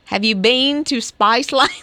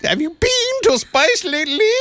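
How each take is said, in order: First: Australian accent with a little cockiness, rising at the end; cocky Australian accent. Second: Much higher Australian attempt slipping into French; botched Australian accent. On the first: Host showing how it's done, cocky Australian accent. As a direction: put some Aussie swagger in it. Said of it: "put the little Australian cockiness in it". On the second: Co-host trying Australian and going French, high botched accent. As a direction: overdo the accent until it turns French. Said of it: "You went French at the". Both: Shown as a demonstration.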